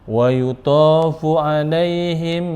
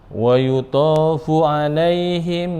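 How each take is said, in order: Both takes have the same delivery.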